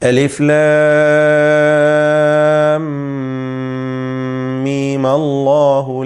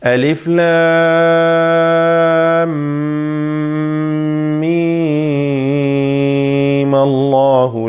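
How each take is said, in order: First: The meem vowel is kept short. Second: The meem vowel is held fully long. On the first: "മീമിനെ ഖസ്ർ ചെയ്യുക, ദീർഘം നൽകാതെ" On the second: "മീമിനും ലാസിമായ ദീർഘം പൂർണ്ണമായും നൽകി"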